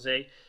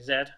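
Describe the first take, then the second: First: It is said the American way, as zee. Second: It is said the British way, as zed.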